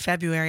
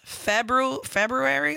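First: The first R is dropped from the word. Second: The first R is pronounced in the word. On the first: "I skip that R" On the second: "I think it's February, like what you're saying"

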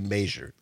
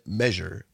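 First: It is said in a local regional pronunciation. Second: It is said in the common pronunciation. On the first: "in Richland Center we say measure" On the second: "most people say measure"

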